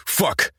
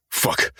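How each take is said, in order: First: A sharp, high "Fuck!" jumping up in pitch; shouted curse. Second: Said in the usual way. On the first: Acted. Cursing in shock.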